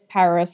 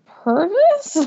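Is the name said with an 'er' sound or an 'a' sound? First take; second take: a sound; er sound. First: The first vowel is an 'a' sound. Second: The first vowel is an 'er' sound. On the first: The speaker calls it right. "I've told him several times it's Paris" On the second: The speaker calls it wrong. "that's just the way you instinctually want to pronounce it"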